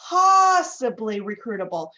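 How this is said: The word possibly carries the stress. The speaker calls it right. "The emphasis is on possibly"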